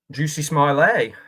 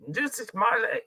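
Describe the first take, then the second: First: Said in the usual way. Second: Quick nod to the comedian, said higher with "Juicy" leaned on; lightly imitated Dave Chappelle saying "Juicy Smiley"; Dave Chappelle impression. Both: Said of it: "That's my Dave Chappelle impression".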